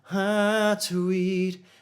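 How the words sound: The resonance is placed in the nose. "she p- places it more in the nose"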